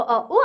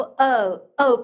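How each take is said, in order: First: 어, 우 as two separate sounds; separated vowels. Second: 어 gliding smoothly into 우 as one sound; smoothly joined vowels. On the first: Teacher showing students what to avoid, disconnected 어, 우. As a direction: split 어 and 우 into two beats. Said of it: "따로따로가 아니고". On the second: Teacher showing students the right glide, smooth 어 into 우. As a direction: slide out of 어 without a break. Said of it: "부드럽게 넘어가야 되죠". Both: Shown as a demonstration.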